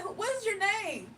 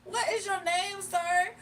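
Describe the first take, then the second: First: Asking high and pointed; incredulous high question; higher questioning. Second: High pointed question; pressing him, higher; incredulous. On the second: Retold quarrel with caller. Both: Retold or imitated.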